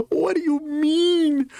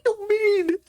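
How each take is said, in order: First: Much higher, slow and drawn out; stretched disbelief. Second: Much higher, squeaked in outrage; squeaky disbelief. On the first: Repeating it, he drags out a high, outraged question. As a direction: drag the question out, still squeaking. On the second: Reacting to the movie, he squeaks outraged disbelief. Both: Real, not acted.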